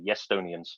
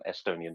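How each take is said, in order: First: The word begins with a 'y' glide sound. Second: The word begins directly with a vowel sound. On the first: "their characteristic pronunciation of Estonia as Yestonia" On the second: "rather than Estonians"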